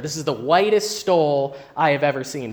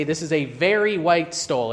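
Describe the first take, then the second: First: "whitest" given weight as the English superlative; superlative example. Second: Said in the usual way. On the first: Shown as a demonstration. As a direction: lean on "whitest" to show the superlative. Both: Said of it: "I would say".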